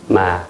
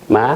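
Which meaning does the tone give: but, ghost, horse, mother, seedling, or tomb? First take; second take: but; mother. First: Said with the tone meaning but. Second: Said with the tone meaning mother. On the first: The word means but. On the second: The word means mother.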